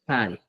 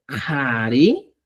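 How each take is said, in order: First: Hari with a light, simple onset; pronunciación simple chanca. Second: Hari drawn out with a strong, throaty QH onset; pronunciación cusqueña. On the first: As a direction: say hari briefly and unforced, Chanca style. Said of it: "Es más simple la pronunciación". (hari chanca, simple y sin forzar) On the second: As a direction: stretch hari slowly with a marked QH. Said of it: "Si yo me he producido aquí, digo". (hari cusqueño, lento, con QH marcada) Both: Shown as a demonstration.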